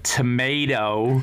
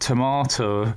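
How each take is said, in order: First: It is said in an American accent. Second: It is said in a British accent. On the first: "instead of tomato" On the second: "giving their kids British accents"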